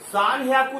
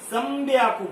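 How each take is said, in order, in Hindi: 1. दूसरा हिस्सा h की आवाज़ से शुरू होता है। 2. दूसरा हिस्सा b की आवाज़ से शुरू होता है। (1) "सान हयाकू नहीं बोलते" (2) "संब्याकू बोलते हैं"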